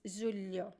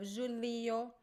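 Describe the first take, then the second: First: The middle is a quick, single palatal 'lh' sound. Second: The middle is a slower, separate 'li' sound. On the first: The speaker calls it right. "but it's faster" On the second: The speaker calls it wrong. "It sounds a little bit like julio"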